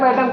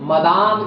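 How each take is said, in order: First: It is said as 'madam', ending short. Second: It is said as 'madame', ending long. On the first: The speaker calls it wrong. "वो मैडम सही उच्चारण नहीं उसका है" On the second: The speaker calls it right. "शायद उसका English terminology मदाम शायद"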